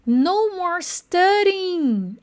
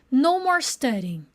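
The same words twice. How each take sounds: First: "studying" slowed right down, t flapped; slow pronunciation model. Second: Said in the usual way. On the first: Shown as a demonstration. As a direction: stretch "No more studying" slowly. (bem devagar, marcando a pronúncia) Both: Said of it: "olha que legal a pronúncia".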